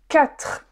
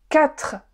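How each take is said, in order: Both takes have the same delivery.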